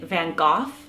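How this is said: The name is said in a British pronunciation. "the British pronounce it"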